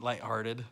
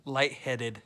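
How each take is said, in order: First: Says "lighthearted" by mistake, for "lightheaded"; "lighthearted", the wrong word, said plainly; dad mistakenly says "lighthearted"; slip of the tongue. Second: "Lightheaded." said as a correction with a falling tune; dad correcting himself to "Lightheaded."; corrected word. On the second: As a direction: fix the slip with "Lightheaded.". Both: Real, not acted. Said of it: "you said I was feeling lighthearted".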